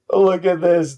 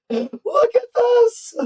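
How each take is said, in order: First: Said in the usual way. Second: Much higher, slow, drawn-out amazement; stunned excitement. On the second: Real, not acted. Reacting to the board wipe, higher and drawn-out in amazement. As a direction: gasp it out at the wiped board.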